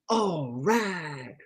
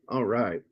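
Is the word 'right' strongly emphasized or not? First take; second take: emphasized; not emphasized. First: The word 'right' is strongly emphasized. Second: It is said plainly, without extra emphasis.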